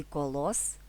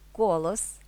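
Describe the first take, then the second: First: КоЛОС, stress at the end, rising tune; stress on last syllable. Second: КОлос, stress at the start, rising end; stress on first syllable. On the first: (наголос на останній склад: коЛОС) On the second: (наголос на перший склад: КОлос) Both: Shown as a demonstration. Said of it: "залежить від наголосу".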